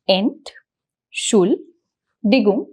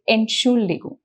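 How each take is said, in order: First: The syllables are said separately with pauses. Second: The syllables run together quickly without pauses. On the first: "you can just break down the syllables" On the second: "and then just repeat them faster"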